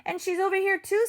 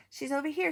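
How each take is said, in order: First: Higher and quicker, rising; climbing punchline take; higher, faster. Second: Said in the usual way. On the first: Acted. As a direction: pitch it up and hurry. Counting broken pieces.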